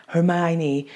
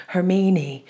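First: Hermione said her-MY-nee; English pronunciation. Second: Hermine said her-MEE-nee, drawn "ee"; German pronunciation. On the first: Comparing the two names aloud, Hermione as her-MY-nee. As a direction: say Hermione with MY in the middle. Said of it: "I hope it's Hermione". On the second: Comparing the two names aloud, Hermine as her-MEE-nee. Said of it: "Hermione and not Hermine". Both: Shown as a demonstration.

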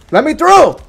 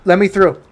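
First: High, loud demand to get past; frustrated yell. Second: Firm push to get past, not yet yelling; firm demand. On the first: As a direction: yell it at whoever is blocking you. Blocked in game, demand repeated louder. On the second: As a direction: insist on getting by, voice slightly raised. Blocked in game, first demand. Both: Real, not acted.

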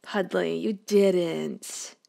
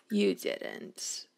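First: Said in the usual way. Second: Breathy, toneless whisper; soft lower whispered gasp of disbelief. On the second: Real, not acted. Scolding the dog in game.

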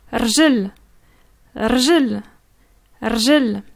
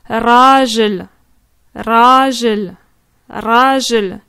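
First: Rjel clipped short, no A after the r; quick rjel. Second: Rajel with a drawn-out open A, slow and firm; long A in rajel. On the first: Teacher showing a learner the short rjel for leg. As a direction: say rjel fast, straight from r to j. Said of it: "ça va très vite". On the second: Teacher showing a learner the long A of rajel for man. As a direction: stretch the A in rajel. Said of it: "tu vas étendre le A". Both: Shown as a demonstration.

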